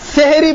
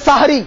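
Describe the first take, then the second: First: The first vowel sounds like 'eh'. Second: The first vowel sounds like 'ah'. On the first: The word means magic. The speaker calls it wrong. "সেহেরি বলবেন না কেউ" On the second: The word means the pre-dawn meal. The speaker calls it right. "শব্দটা হবে সাহারি"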